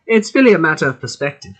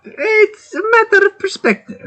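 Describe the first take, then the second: First: A little bit of German accent; shaky-quality attempt at a German accent; slight German accent. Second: Very high-pitched, bad German accent; squeaky botched attempt at a German accent. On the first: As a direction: try a passable but weak German accent. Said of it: "There's a little bit". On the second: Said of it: "That's a bad German accent". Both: Shown as a demonstration.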